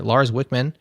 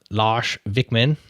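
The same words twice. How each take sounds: First: The name is said with a Midwestern American accent. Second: The name is said with a native, local accent.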